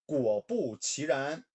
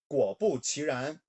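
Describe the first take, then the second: The two takes are said the same way.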